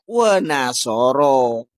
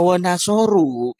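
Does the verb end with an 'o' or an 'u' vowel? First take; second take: o vowel; u vowel. First: The verb ends with an 'o' vowel. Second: The verb ends with an 'u' vowel. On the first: One male person did it. The speaker calls it right. "ini juga wa nasoro. Itu fi'il madi mabni fathah" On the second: Several people did it. The speaker calls it wrong. "Kalau dibaca wa nasoru itu berarti jamak"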